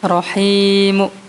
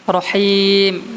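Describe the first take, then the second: First: A faint short u follows the final m. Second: The word ends on a bare final m. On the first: "yang dengan raumnya dihapus tanwinnya tadi" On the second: "boleh dengan sukun kan. Rahim biasa"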